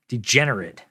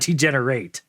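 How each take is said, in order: First: The last syllable is weak, like 'it'. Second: The last syllable is full, like 'ate'. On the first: It names a kind of person. The speaker calls it right. "We're using the noun degenerate" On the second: It names an action of getting worse. The speaker calls it wrong.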